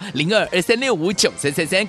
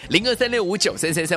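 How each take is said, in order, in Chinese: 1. 号码读得很慢。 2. 号码是正常语速读的。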